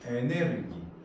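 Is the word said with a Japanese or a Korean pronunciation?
Japanese. It is said as four syllables, e-ne-reu-gi.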